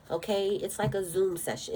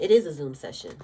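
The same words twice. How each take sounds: First: Said in the usual way. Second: "It is a Zoom session" with a loud, lower "is"; stress on IS. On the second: Shown as a demonstration. Tarot reader insists to her viewers that readings are live: loud stress on "is". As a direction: punch "is" to insist it truly is one.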